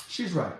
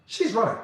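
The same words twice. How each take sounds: First: Quiet echo. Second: Said in the usual way. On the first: Shown as a demonstration. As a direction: let She's right. fall away quietly as an echo.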